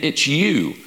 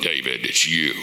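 First: Said in the usual way. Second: Very deep, mock-divine pronouncement; voice of God. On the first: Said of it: "the prophet would go tell". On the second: Preacher imagining God confronting David himself, deep mock God voice. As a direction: drop far down into a hammed-up God voice. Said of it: "God could have showed up and went".

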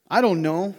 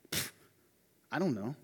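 First: "I don't know" tossed out loudly, rising on "I"; remorseless shrug. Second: "Pfft, I don't know" muttered low and soft, falling on "dont"; dismissive shrug. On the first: Preacher plays Cain answering God with a loud, careless "I don't know". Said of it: "There's no sense of remorse here". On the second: Preacher plays Cain's offhand reply to God, muttered low. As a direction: blow it off under your breath. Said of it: "All we have is". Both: Retold or imitated.

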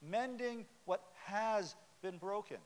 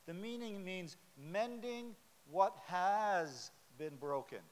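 First: Has leaned on to mark the past tense; stress on has. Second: Drawn out, every word weighted; slow, deliberate preacher emphasis. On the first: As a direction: hit has, it's already broken. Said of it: "past tense". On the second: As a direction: lay it out slowly, word by word. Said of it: "Let me emphasize again, past tense". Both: Shown as a demonstration.

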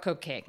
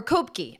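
First: "Kopke" said KOPE-kay; mispronounced name. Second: "Kopke" said KOPE-kee; alternative pronunciation. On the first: Host naming the port house, mispronounced as KOPE-kay. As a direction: say "Kopke" with a long O, ending in kay. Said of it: "mispronouncing it". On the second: Host trying the name another way, KOPE-kee. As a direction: say "Kopke" with a long O, ending in kee. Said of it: "mispronouncing it, right?". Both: Real, not acted.

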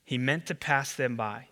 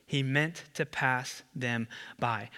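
First: Said in the usual way. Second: He meant to pass them by, slowed right down, every word weighed; slow, weighted reading. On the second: Shown as a demonstration. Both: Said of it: "you gotta circle that phrase".

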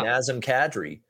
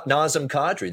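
First: "Nazem Kadri" with short a's, NAZ-em KAD-ree; other people's pronunciation. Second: "Nazem Kadri" with ah vowels, NAH-zem KAH-dree; own pronunciation of Nazem Kadri. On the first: Retold or imitated. Host quoting other people, "Nazem Kadri" as NAZ-em KAD-ree. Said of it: "There's people that say". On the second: Shown as a demonstration. Host giving another example, "Nazem Kadri" as NAH-zem KAH-dree. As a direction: say "Nazem Kadri" with open ah in both names. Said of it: "I go Nazem and Kadri".

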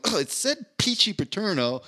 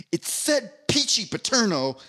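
First: Mocking the lady. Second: High, slow, indignant snap of the name; acted-out annoyance, drawing out the flavor; indignant angry retort. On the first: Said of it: "he just keeps going". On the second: Cafeteria lady scolding the kid, indignant and slow. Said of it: "like, angry".

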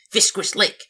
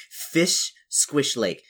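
First: High, loud goblin cry. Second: Each word drawn out separately; slow, savoured name. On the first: Acted. Player tries out the lake's name, high goblin voice. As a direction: run the name together as an excited goblin. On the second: Shown as a demonstration. Player relishes a great goblin-like name, slow and savoured.

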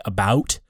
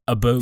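First: Said in the usual way. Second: "about" as "a-boot", with a rounded vowel; "about" in a Canadian twang. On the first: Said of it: "I accidentally say". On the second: Shown as a demonstration. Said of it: "accidentally say "about," like, "about".

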